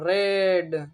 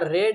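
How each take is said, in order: First: The e vowel is drawn out a little. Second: The vowel is a short e sound. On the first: "यहाँ पे ई को थोड़ा टान के पढ़ो" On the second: "रेड मतलब लाल वाला रेड पढ़ो"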